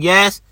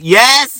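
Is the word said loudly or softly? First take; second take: softly; loudly. First: The word is said softly, at normal volume. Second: The word is said loudly, almost yelled. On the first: The answer is too quiet to be heard. The speaker calls it wrong. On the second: The answer is loud enough to be heard. The speaker calls it right.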